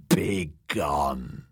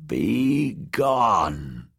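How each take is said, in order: First: Low, croaked hag whisper; croaking whisper. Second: Croaking voice. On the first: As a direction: croak it out like an old crone. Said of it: "in a croaking whisper". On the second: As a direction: croak it slowly like an old witch. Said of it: "croaked Maggie a third time". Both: Acted.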